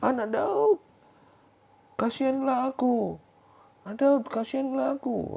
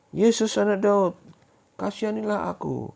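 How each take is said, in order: First: Very high, slow, desperate shouted plea; crying out louder. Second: High, loud, slow pleading cry; blind beggar crying out. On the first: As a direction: cry even louder after being hushed. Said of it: "semakin keras dia berteriak". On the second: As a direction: call out begging for mercy. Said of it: "Dia berteriak-teriak". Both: Acted.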